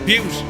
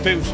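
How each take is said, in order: First: The word sounds like 'beaut', with a 'y' glide. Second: The word sounds like 'boot', with no glide. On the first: The speaker calls it right. "Butte is actually pronounced like beauty" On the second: The speaker calls it wrong. "not boot"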